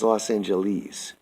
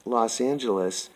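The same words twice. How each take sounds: First: Los Angeles ending in a long "eez"; last syllable as "ease". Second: Said in the usual way. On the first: Retold or imitated. Quoting a childhood teacher's unusual way of saying it, Los Angeles ending in "eez". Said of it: "Her pronunciation was ease". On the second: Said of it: "not spoken as we say it".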